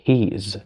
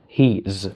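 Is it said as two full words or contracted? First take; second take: contracted; contracted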